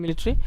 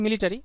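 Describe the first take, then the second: First: মিলিটারি shortened to three syllables, mi-li-tri; corrected pronunciation. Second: মিলিটারি in four syllables, mi-li-ta-ri; common variant pronunciation. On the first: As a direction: drop the "ta" vowel in মিলিটারি, ending "-tri". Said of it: "but উচ্চারণটা আসলে মিলিটারি". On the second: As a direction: sound the full "ta" in মিলিটারি. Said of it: "অনেকে উচ্চারণ করে মিলিটারি". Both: Shown as a demonstration.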